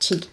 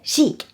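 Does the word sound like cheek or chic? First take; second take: cheek; chic. First: It sounds like the word cheek. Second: It sounds like the word chic. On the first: The speaker calls it wrong. "It's not cheek" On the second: The speaker calls it right. "It's chic"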